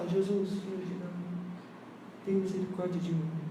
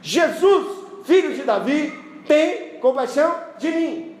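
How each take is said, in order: First: It is said quietly and timidly. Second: It is shouted loudly.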